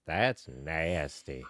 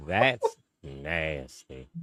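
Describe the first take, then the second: First: Slow, low drawn-out "That's nasty"; Cleveland Brown impression. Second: Very slow, lower "That's nasty" in a put-on voice; Cleveland Brown impression. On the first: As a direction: stretch it slow and low like the cartoon dad. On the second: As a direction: drag each word out in a cartoon dad voice. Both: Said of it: "in the words of, of Cleveland Brown".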